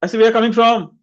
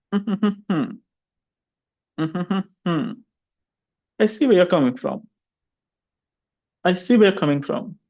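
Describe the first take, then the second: First: Higher and louder, pitch lifting through WHERE; the irritated-sounding rising version; rising intonation. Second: Each phrase drops at the end; settled falling tune, sure and calm; falling intonation. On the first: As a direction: push the tune up as if irritated. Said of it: "speak it with a rising intonation pattern". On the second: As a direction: let the line fall away at the close. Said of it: "falling intonation". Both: Shown as a demonstration.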